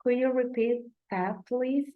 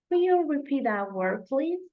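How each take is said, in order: First: Plain American phrasing; American-sounding. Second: Lightly British, rising please; a British-sounding question; British accent. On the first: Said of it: "this question should sound like this". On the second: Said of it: "I'm sounding more British than American". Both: Shown as a demonstration.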